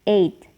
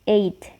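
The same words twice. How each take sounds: Both takes have the same delivery.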